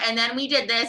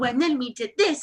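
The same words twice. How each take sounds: First: It is told in a flat, hesitant way. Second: It is told in a lively, engaging way. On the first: No one wants to hear this teller's story. The speaker calls it wrong. "this is such a bland Mercury" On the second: The teller is a good storyteller. The speaker calls it right. "she'd be like, oh"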